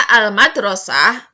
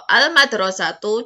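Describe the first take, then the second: First: The word ends in a breathy 'ah' sound. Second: The word ends in a short 'tu' sound. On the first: "Itu bisa al-madrasah, bisa" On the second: "Atau al-madrasatu juga bisa"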